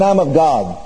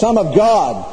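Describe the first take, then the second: First: It is said plainly, without extra force. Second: It is said with an authoritative, forceful voice.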